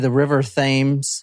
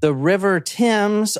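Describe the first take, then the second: First: Thames is said the American way. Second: Thames is said the British way.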